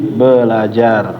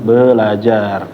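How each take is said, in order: The two takes are said the same way.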